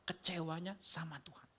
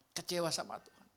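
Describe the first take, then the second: First: Whispered reveal; hushed whisper. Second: Said in the usual way. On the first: Acted. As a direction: drop to a whispered aside. Preacher hushes the key point.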